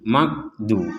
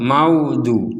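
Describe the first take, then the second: First: The middle consonant is a plain hard g. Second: The middle consonant sounds like a w. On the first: "kalau dibaca huruf G dalam bahasa Indonesia" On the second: "Juga tidak boleh seperti wawu"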